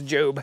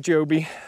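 First: The name is said with one syllable. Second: The name is said with two syllables. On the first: The speaker calls it wrong. "I don't think it's Job" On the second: The speaker calls it right. "I think it's Joby"

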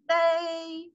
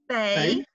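First: The pitch stays high and level. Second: The pitch rises from middle to high. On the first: "if you want to pronounce the first tone, you just need to sing it" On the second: "so the second tone, then?"

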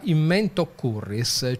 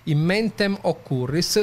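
First: The final M is dropped and the words merge. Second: The final M of mentem is pronounced. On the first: The speaker calls it right. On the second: The speaker calls it wrong.

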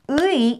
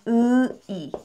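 First: The syllable is said quickly as one glide. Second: The syllable is said slowly, drawn out.

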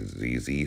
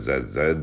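First: The letters are said as zee, American style. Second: The letters are said as zed, Canadian style.

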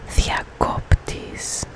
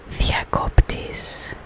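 No difference in how they are said.

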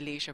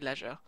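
First: The word is said the American way. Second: The word is said a non-American way. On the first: This is how American players say it. The speaker calls it wrong. "American people who play The Sims, and they always say leisure" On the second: This is how it is said in the speaker's own language. The speaker calls it right. "but it's actually leisure"

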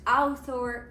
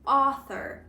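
First: The first vowel is read as a two-part glide. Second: The first vowel is a single rounded vowel. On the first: The speaker calls it wrong. "Часто чую, коли його так і читають" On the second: The speaker calls it right. "ми округляємо губи ніби для звуку О, але при цьому вимовляємо звук А"

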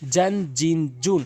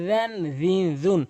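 First: The first consonant is not made at the teeth. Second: The first consonant uses the tongue tip at the teeth. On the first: The speaker calls it wrong. "অধিকাংশ লোক ভুল বলে" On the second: The speaker calls it right. "এখানে বলতে হবে ... জিব্বার আগা এবং দাঁতের আগা থেকে"

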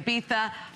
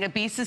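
First: It is said in a British/Spanish way. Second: It is said in an American way.

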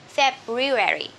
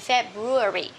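First: It is said in an American English accent. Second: It is said in a British English accent. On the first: "American English" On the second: "for British English"

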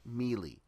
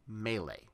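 First: It sounds like the word mealy. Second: It does not sound like mealy. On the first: The speaker calls it wrong. "It's not melee. An apple that's not ripe, that's melee" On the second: The speaker calls it right. "It's melee"

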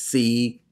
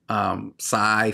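First: The vowel is an 'ee' sound. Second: The vowel is an 'eye' sound. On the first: The speaker calls it right. "It's not the I sound. It's the e sound" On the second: The speaker calls it wrong. "We say psi"

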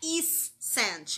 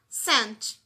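First: The c is pronounced as an extra sound. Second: The c is silent, just an s sound. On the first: The speaker calls it wrong. "não é is scent. Imagina que esse C fosse pronunciado" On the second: The speaker calls it right. "Como o C é mudo, a gente fala só scent"

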